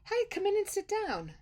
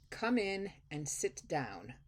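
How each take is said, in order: First: It sounds warm, friendly and welcoming. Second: It sounds stern, cold and displeased.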